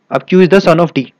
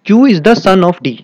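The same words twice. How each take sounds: First: Said in the usual way. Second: Slow, a little louder, each word spelled out; teacher reading a puzzle clue slowly; slow emphatic reading. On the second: Shown as a demonstration. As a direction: read the clue out slowly for the class. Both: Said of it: "आगे देखते हैं".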